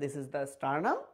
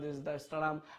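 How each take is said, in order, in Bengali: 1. এটা স্মার্টলি ও আত্মবিশ্বাসের সঙ্গে বলা হচ্ছে, যেন পুরোপুরি বোঝা আছে। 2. এটা যান্ত্রিকভাবে গড়গড় করে বলা হচ্ছে, মুখস্থ আবৃত্তির মতো। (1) "খুব তোমাকে স্মার্টলি বলতে হবে" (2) "অনেকেই আছে কি এত বেশি মুখস্থ করে"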